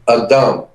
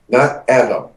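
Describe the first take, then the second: First: It is pronounced as the Hebrew word. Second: It is pronounced as the English name. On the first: It is the original word in the scripture. The speaker calls it right. "The word is A D M in Hebrew" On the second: It is the familiar personal name. The speaker calls it wrong.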